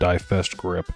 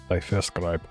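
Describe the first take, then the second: First: The last syllable sounds like English 'grip'. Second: The last syllable has a different vowel sound. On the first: The speaker calls it wrong. "Not Die Festgrip" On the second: The speaker calls it right. "I'm pretty sure that's Die Festgreip"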